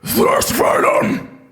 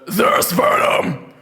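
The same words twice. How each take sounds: First: It is a scream with extra breath. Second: It is a plain scream without extra breath.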